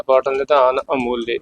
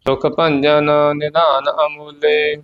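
First: ਨਿਧਾਨ said with a clear dental ਧ, quick demo; ਨਿਧਾਨ spoken crisply with the ਧੱਦਾ sound; careful pronunciation. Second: Said in the usual way. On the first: Shown as a demonstration. (ਨਿਧਾਨ ਧੱਦੇ ਨਾਲ ਸਾਫ਼ ਬੋਲਣਾ) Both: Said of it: "ਨਿਧਾਨ ਧੱਦੇ ਨਾਲ ਬੋਲਣਾ".

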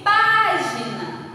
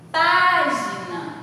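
First: Slow página with pá loud; stress on PÁ. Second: Slow Página, pá loud, rising end; stress on PÁ. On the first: Teacher showing página to pupils, slow, pá stressed. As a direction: stretch página, hitting pá. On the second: Teacher repeating página for the class, pá stressed. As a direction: repeat Página slowly, punching pá. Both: Shown as a demonstration. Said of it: "O pá vai ser a sílaba tônica".

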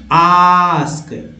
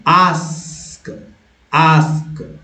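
First: "आस्क" held long, British ah; British accent. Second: "आस्क" drawn out with American a; American accent. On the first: Teacher repeating the contrast for learners, British accent. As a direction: stretch "आस्क" as aahsk in British English. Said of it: "British accent में आस्क". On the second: Teacher repeating the contrast for learners, American accent. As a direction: say "आस्क" stretched, American style. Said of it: "American accent में आस्क". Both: Shown as a demonstration.

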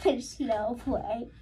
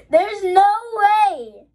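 First: Soft, slow, with a laugh; quiet, drawn-out murmur of disbelief; hushed disbelief. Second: High, loud, drawn-out cry; slow high wail of disbelief. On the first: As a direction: barely get it out, stunned. First stunned reaction to rare pull. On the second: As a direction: burst out in amazement, stretching it. Disbelief bursting out at rare pull. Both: Real, not acted.

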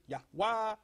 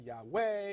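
First: "Yahweh" ending in an open "wah"; alternative pronunciation. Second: "Yahweh" ending in "way"; common pronunciation. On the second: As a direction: say "Yahweh" as yah-WAY. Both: Shown as a demonstration. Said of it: "some pronounce it".

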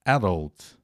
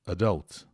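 First: "adult" said AD-ult; "adult" with a strong AD and weak ending; first-syllable stress. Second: "Adult" said a-DULT; "Adult" with a weak first vowel and strong DULT; second-syllable stress. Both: Shown as a demonstration. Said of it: "as duas pronúncias de adult".

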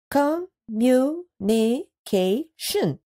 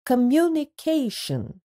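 First: "Communication" stretched slowly, each syllable drawn out; slow syllabified. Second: Said in the usual way. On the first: Shown as a demonstration. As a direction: say "Communication" slowly, one syllable per chin touch. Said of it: "Let's do it again". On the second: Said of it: "read out the word".

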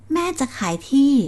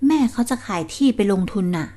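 First: Surprised echo. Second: Said in the usual way. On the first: Acted. Son echoes shocked.

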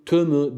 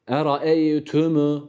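First: Tümü with the m slurred, lips not closed; wrong mim. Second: Eraeytümü with lips fully closed on the m, slow; slow, lips shut on the mim in Eraeytümü; careful recitation. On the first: Tutor shows the mistaken reading. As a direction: careless tümü. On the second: Tutor models the clear mim for the student. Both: Shown as a demonstration. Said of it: "tümü değil".

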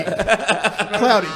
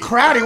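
First: "Cloudy" with an L after the C; corrected pronunciation. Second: "Crowdy" with an R in place of L; mimicked mispronunciation. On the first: Shown as a demonstration. Forecaster correcting a teased slip, "Cloudy" with an L. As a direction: say "Cloudy" drawn out, with its L. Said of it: "Crowdy, what are you gonna be". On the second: Host teasing the forecaster's slip, "Crowdy" with R for L. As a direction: say "Crowdy" for cloudy, mocking the slip. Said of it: "It's crowdy?".

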